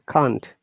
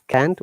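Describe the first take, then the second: First: It is said in a British accent. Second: It is said in an American accent. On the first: "we say can't" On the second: "American says can't"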